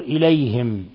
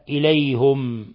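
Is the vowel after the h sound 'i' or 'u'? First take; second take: i; u. First: The h is followed by an 'i' vowel. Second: The h is followed by an 'u' vowel. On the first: This is the other readers' reading. "وقرأ الباقون بالكسر" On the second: This is one reader's variant reading. "قرأها بضم الهاء"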